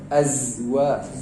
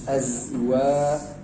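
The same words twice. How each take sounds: First: The z sound is said with a strong hiss. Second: The same.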